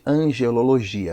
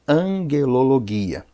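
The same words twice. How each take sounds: First: It is pronounced the usual Portuguese way. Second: It is pronounced in a Greek style. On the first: "todo mundo chama de angelologia" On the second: "na forma de pronunciar no grego"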